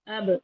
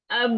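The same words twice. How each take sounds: First: اب with the b popped open into a short echo; qalqalah bounce. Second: اب with the b held on closed lips, unreleased; no qalqalah. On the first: Teacher showing the correct qalqalah, اب bouncing off the lips. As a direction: release the lips at once after the b in اب. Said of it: "اس کو کہتے ہیں قلقلہ کرنا". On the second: Teacher showing what to avoid, اب stopped dead without release. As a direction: cut اب off on shut lips, no bounce. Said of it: "اب کی بجائے اب". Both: Shown as a demonstration.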